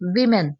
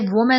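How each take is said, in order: First: The first syllable sounds like 'wi'. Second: The first syllable sounds like 'woo'. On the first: The speaker calls it right. "बल्कि ये होगा विमेन" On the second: The speaker calls it wrong. "इसे वुमेन नहीं बोलना आप लोगों ने"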